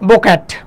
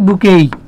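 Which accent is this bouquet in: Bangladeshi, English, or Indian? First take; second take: Indian; English. First: It has an o and a flat a, with a final t. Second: It ends in an ay sound, no final t. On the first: The speaker calls it wrong. "Exactly Indian" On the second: The speaker calls it right. "Correct উচ্চারণ কি? বুকেই।"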